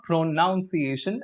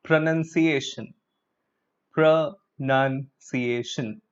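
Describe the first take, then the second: First: "pronunciation" with "nounce" in the middle, pro-nown-ciation; wrong pronunciation. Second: "pronunciation" slowly as pro-nun-ciation; correct pronunciation, slow. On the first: Teacher showing students the wrong pronunciation. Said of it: "it's not pronunciation". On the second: Teacher slowly modelling pronunciation for students. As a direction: stretch out "pronunciation" with a nun sound. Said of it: "the correct form is this". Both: Shown as a demonstration.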